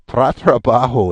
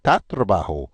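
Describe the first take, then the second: First: The repeated syllable keeps the r sound. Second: The repeated syllable drops the r sound. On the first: The speaker calls it wrong. "try try to say tra tra bajo. It's it's a tongue twister" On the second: The speaker calls it right. "It's much easier just to say ta trabajo"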